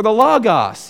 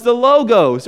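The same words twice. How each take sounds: First: "logos" said LAW-gahs; short-o logos. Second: "logos" said LOH-gohs; long-o logos. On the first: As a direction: give "logos" open vowels, LAW-gahs. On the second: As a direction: give "logos" two long o sounds. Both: Shown as a demonstration. Gives two pronunciations of logos.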